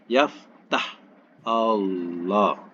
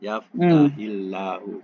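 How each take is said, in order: First: The verb ends abruptly before a separate 'Allah'. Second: The verb links into 'Allah' with an 'i' sound. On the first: The speaker calls it wrong. "Kan berat" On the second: The speaker calls it right. "Kan ringan?"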